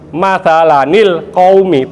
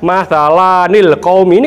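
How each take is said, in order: First: The vowel in 'la' is short. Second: The vowel in 'la' is long. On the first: The speaker calls it right. "ini kan lanya pendek" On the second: The speaker calls it wrong. "bukan lanya panjang, bukan"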